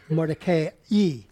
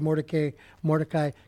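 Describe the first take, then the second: First: The name ends with an 'ee' sound. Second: The name ends with an 'eye' sound. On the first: This is the stricter, technical pronunciation. "You want to pronounce the I as an E" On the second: This is the familiar, customary pronunciation. "I'm just going to say Mordecai"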